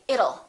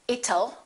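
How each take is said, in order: First: The middle consonant is a fast D sound. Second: The middle consonant is a sharp T sound. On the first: The speaker calls it right. "change that T into a fast D and say it'll" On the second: The speaker calls it wrong. "Don't say it'll"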